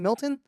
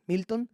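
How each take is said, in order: First: The name is pronounced with English sounds. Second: The name is pronounced with Spanish sounds. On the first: "instead of saying Milton" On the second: "they pronounce them Spanish way"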